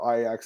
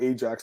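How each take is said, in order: First: Ajax is pronounced the Dutch club way. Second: Ajax is pronounced the local town way. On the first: This is how the club's fans say it. "you guys pronounce it different" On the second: This is how people near the town say it. "We call it Ajax"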